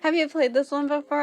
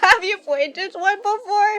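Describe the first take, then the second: First: It is read in a normal voice. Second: It is read in a cutesy uwu voice.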